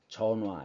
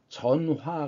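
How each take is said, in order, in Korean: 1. 가운데 ㅎ 소리는 탈락합니다. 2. 가운데 ㅎ 소리는 분명히 발음됩니다. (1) "보통 발음할 때는 어떻게 발음합니까? 전화 이렇게 발음합니다" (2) "강조할 때는 전화라고 발음하지만"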